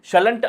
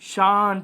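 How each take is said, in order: First: The word keeps an L sound before the ending. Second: The word has no L sound, with a long vowel. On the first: The speaker calls it wrong. "షలంట్ అని అనకూడదు" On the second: The speaker calls it right. "షాంట్ అని పలకాలి"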